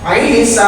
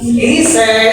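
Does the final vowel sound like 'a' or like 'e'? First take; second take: a; e. First: The final vowel is an open 'a'. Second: The final vowel is shifted toward 'e'. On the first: The speaker calls it right. "Isa nggak dibaca Ise" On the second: The speaker calls it wrong. "nggak dibaca Ise"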